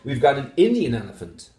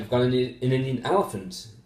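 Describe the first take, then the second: First: The stress is on Indian. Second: The stress is on elephant.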